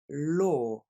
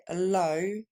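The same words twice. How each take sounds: First: Law with a long rounded "aw"; English law. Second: Low said with the open vowel of "bas"; the typical French error on low; wrong French habit. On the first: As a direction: law drawn out with a deep "o". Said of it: "la loi, le droit, se dit". (law prononcé avec un « o » long et arrondi) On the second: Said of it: "vous avez systématiquement, euh, l'habitude de le prononcer low". (low prononcé comme « bas », la faute habituelle) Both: Shown as a demonstration.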